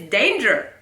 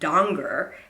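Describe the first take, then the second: First: The name rhymes with 'stranger', with an 'ay' vowel. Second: The name is said with an 'ah' vowel, like 'donger'. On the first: The speaker calls it wrong. "He mispronounces my name. Doesn't rhyme with stranger" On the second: The speaker calls it right. "It's actually Donger"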